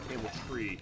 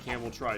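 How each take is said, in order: First: The name ends with a "tree" sound. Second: The name ends with a "try" sound. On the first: The speaker calls it wrong. "I call it Hamiltree" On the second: The speaker calls it right. "like camel and try"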